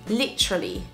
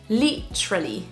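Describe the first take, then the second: The two takes are said the same way.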